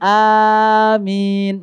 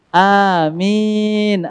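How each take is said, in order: First: The first vowel is long, the last is short. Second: The first vowel is short, the last is long. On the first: The speaker calls it wrong. "Terbalik ya. A-nya panjang" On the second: The speaker calls it right. "Yang lebih tepat adalah amin"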